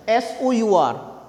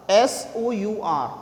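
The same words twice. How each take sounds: The two takes are said the same way.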